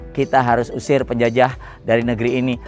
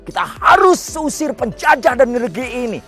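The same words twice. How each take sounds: First: It is read flatly with little intonation. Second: It is delivered forcefully with strong, rousing intonation. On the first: Only the words carry the message. The speaker calls it wrong. "kalau kata-kata itu dibaca hanya" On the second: The delivery moves and persuades people. The speaker calls it right. "dia memakai intonasi yang luar biasa"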